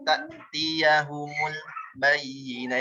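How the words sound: The sound stops after 'ta'tiyahumul'. The speaker calls it wrong. "jangan ta'tiyahumul bayyinah itu berhenti"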